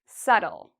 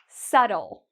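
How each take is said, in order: No difference in how they are said.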